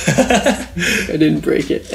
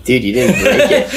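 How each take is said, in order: First: Drawn out very slowly, higher, laughing; slow laughing repeat. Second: Higher and louder, laughing through it; laughing disbelief. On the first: Replaying the punchline to his friend, slow and laughing. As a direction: savour the punchline through laughter. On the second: Telling Scott his thumb isn't broken, laughing. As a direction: crack up while telling him. Laughing at friend's fake break. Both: Retold or imitated.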